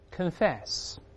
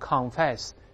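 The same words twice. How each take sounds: First: The first syllable is reduced, like 'kin'. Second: The first syllable has a full 'con' vowel. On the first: The speaker calls it right. "是kin kin。再来一遍" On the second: The speaker calls it wrong. "轻读时不要读confess"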